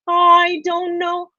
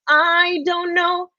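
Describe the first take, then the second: First: The vowel in 'I' is round and soft. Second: The vowel in 'I' is thin and spread. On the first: The speaker calls it right. "I'm asking for a" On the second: The speaker calls it wrong. "your I is more of an"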